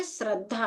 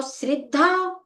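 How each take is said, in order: First: "श्रद्धा" with short a after sr; correct pronunciation. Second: "श्रद्धा" with a clear i after sr; i-sound pronunciation. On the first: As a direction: say "श्रद्धा" softly as srad-dhaa. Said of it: "उसका उच्चारण क्या है?". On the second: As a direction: say "श्रद्धा" as srid-dhaa, higher. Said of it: "ई निकलता है उससे". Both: Shown as a demonstration.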